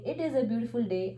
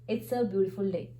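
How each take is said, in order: First: The words "it is" are said in full. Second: The words "it is" are contracted to "it's". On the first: "instead of uh, saying it is a beautiful day" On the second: "I can shorten it up and say"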